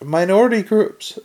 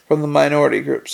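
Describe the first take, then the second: First: "Minority groups?" lifted high as a query; higher-pitched query on "Minority groups?"; questioning echo. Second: Said in the usual way. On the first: A narrator's reading. Echoes the phrase back as question.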